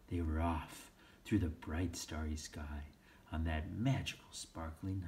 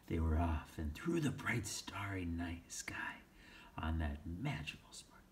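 First: Said in the usual way. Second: Whispered. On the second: Shown as a demonstration. Re-read, first take whispered.

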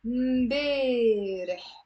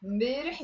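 First: امبارح slowly, with a long drawn-out "ay": mbeeee-reh; long A sound. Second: Said in the usual way. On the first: Shown as a demonstration. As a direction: stretch the middle vowel of امبارح. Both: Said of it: "long A sound here".

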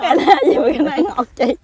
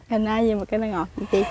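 First: Laughing while asking; giggly, amused asking; laughing question. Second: Said in the usual way. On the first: Real, not acted.

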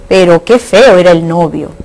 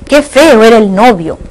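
First: "qué feo" more contained, a milder stress on feo; indirect exclamation. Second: "Qué feo" exclaimed with a lift on feo, then falling; direct exclamation. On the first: Teacher reading the indirect-exclamation example, contained emphasis. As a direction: say "Pero qué feo era el novio" as an understated remark. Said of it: "Pero en la indirecta". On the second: Teacher reading the direct-exclamation example, exclaiming. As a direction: exclaim "Qué feo era el novio" with lively emphasis on feo. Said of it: "Oraciones exclamativas directas e indirectas".

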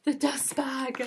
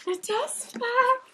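First: Said in the usual way. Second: Much higher, slow and drawn out; delighted. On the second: Real, not acted. Seeing the dust bag, high slow delight. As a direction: savour it with delight.

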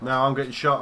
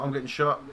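First: Loud, high panic under fire; panicked shout. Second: Loud, high repeated panic; panicked shout. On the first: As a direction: yell to the squad for help. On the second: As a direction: keep yelling for help. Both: Real, not acted.

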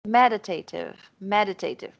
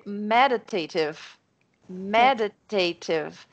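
First: "meditative" with a strong "me" and a secondary stress on "ta"; first syllable stressed. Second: "meditative" said slowly, first syllable strongest, "ta" also strong; slow it down, hit "me" hardest and "ta" a little less; stress on ME and TA. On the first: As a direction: say "meditative" as if it were two words. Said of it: "agora acertei". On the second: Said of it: "a primeira sílaba de cada uma é forte". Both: Shown as a demonstration.

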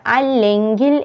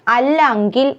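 First: അല്ലെങ്കിൽ with a clear "e"; correct pronunciation. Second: അല്ലെങ്കിൽ with "a" for "e"; wrong pronunciation. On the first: Teacher correcting learners, clear "le" in അല്ലെങ്കിൽ. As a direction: say അല്ലെങ്കിൽ as "allengil". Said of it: "എന്നാണ്". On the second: Teacher showing the mistake, mispronounced അല്ലെങ്കിൽ. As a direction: say അല്ലെങ്കിൽ as "allangil". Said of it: "എന്നല്ല". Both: Shown as a demonstration.

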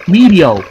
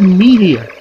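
First: "Meteor" said as "MEE-dee-oh", no final R; misspelt reading. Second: Said in the usual way. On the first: Shown as a demonstration. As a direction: read "Meteor" as spelt without its R, ending in "oh". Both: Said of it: "They didn't even put the R".

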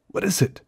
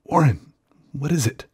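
First: Panicked repeat, much higher; terrified, pitch climbing. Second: Frightened, higher call down the line; terrified calling. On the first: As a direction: push the fear up a notch. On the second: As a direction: call out in fear. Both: Acted. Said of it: "Terrified, I continued to repeat".

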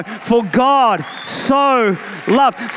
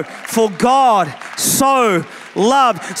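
First: Words drawn out slowly and firmly; slow, emphatic. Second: Each word drawn out slowly; slow, emphatic. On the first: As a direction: lean into each word. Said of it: "you thought he was judgmental? No, no". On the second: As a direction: stretch every word, savor it. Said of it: "you thought he was angry? No". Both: Shown as a demonstration.

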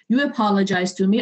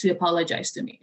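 First: Said in the usual way. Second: Softer, with a rueful laugh; a laugh on the last line of the rule. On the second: Real, not acted. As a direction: land the punchline laughing. Punchline with laugh.

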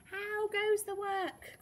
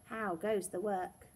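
First: High, drawn-out farmer's call. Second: Said in the usual way. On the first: A narrator's reading. Farmer calling to the working duck, high drawn-out call. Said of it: "called the farmer". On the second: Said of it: "expecting to hear".

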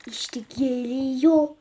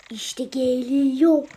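The two takes are said the same way.

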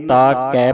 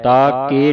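First: ਕੈ with an open "ai" vowel; correct vowel. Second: ਕੇ with a plain "e" vowel, louder; wrong vowel. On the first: Teacher shows the class how to read it, correct vowel. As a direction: say ਤਾ ਕੈ with open "kai". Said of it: "ਪੜ੍ਹਨਾ". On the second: Teacher shows the class what not to read, wrong vowel. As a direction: say ਤਾ ਕੇ with closed "ke". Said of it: "ਨਹੀਂ ਪੜ੍ਹਨਾ". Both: Shown as a demonstration.

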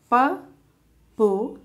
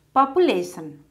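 First: Population as po-pu-la-tion, spaced out; four separate beats for Population; syllable by syllable. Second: Said in the usual way. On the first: Shown as a demonstration. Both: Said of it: "how to divide words".

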